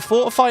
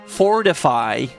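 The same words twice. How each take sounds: First: The T sound in the middle is dropped. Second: The T sound in the middle is clearly pronounced. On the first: The speaker calls it wrong. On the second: The speaker calls it right.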